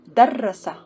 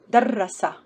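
First: The r sound in the middle is doubled. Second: The same.

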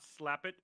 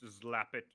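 First: The name begins with a hissing s sound. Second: The name begins with a buzzing z sound. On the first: The speaker calls it wrong. "It's not Slapit" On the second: The speaker calls it right. "It's Zlapit"

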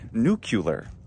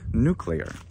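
First: A vowel breaks up the cl cluster. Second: The cl cluster is kept together. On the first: "people say nuclear sometimes in English" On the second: "instead of nuclear"

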